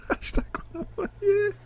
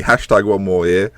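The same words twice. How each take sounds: First: Laughing wryly. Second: Said in the usual way. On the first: Real, not acted. Laughing at himself.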